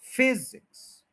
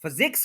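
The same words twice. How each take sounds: First: physics with a high, drawn-out FIZ and light IKS; stress on first syllable. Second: physics with weak first syllable, weight on ZIKS; stress on second syllable. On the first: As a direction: slowly hit FIZ, let IKS fall. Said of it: "stress फिज के ऊपर रहना चाहिए". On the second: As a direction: lean on the end of physics. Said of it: "वो x के ऊपर stress आ गया". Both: Shown as a demonstration.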